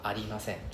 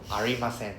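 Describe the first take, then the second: First: The middle consonant sounds like a light L. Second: The middle consonant sounds like an English R. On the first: The speaker calls it right. "No R sound, huh? L sound" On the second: The speaker calls it wrong. "When you say R sound"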